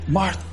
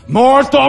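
First: The name is said in a gentle, loving tone. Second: The name is said in a harsh, scolding tone. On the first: The speaker cares about her. The speaker calls it right. "Jesus loved Martha" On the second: The speaker is rebuking her. The speaker calls it wrong. "I always heard preachers beat up on Martha. ... He didn't say it like that"

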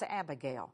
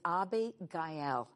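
First: The name is said the usual English way. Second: The name is said the way locals there say it. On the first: "Now that's Abigail" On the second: "the way they pronounce it over there"

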